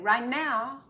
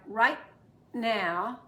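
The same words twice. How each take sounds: First: The T runs straight into the next word. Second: The T is held with a brief stop. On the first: The speaker calls it wrong. "it's confusing" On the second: The speaker calls it right. "I'm going to stop right there"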